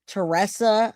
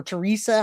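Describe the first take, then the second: First: Teresa said tuh-RESS-uh; Teresa, middle syllable rhyming with "dress"; alternative name pronunciation. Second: Teresa said tuh-REE-suh; Teresa, middle syllable rhyming with "see"; alternative name pronunciation. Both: Shown as a demonstration. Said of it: "however you say it".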